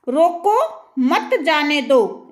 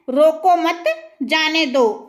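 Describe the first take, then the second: First: Slow "रोको", clear break, then "मत जाने दो" together; pause after रोको. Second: "रोको मत" as one phrase, brief break, then "जाने दो"; pause after मत. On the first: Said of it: "वाक्य को दो भागों में बांटा गया". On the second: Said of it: "अब इस वाक्य को कई अर्थ". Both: Shown as a demonstration.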